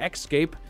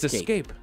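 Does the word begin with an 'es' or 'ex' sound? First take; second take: ex; es. First: It is said with a k sound before the s. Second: It is said with no k sound before the s. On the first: The speaker calls it wrong. "If you say escape, you're making the word harder than it needs to be" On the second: The speaker calls it right. "It's escape"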